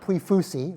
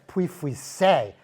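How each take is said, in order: First: The name is pronounced the careless, mangled way. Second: The name is pronounced the careful French way. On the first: This is how many people used to mispronounce it. The speaker calls it wrong. "not ... like a lot of people were saying it back then" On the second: This is how the name should be said. The speaker calls it right. "you should try the"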